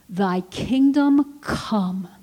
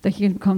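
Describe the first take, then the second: First: It is said slowly and deliberately. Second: It is said quickly, rushed through.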